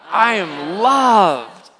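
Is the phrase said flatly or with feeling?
with feeling. It is said warmly, with strong feeling. The speaker truly believes it. The speaker calls it right. "say it with all your heart. Let your face express that out"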